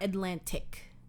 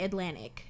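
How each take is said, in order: First: Both the first and the last T are said. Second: The first T is said, the last T dropped. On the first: The speaker calls it wrong. "not Atlantic" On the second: The speaker calls it right. "we say the first T but not the last T"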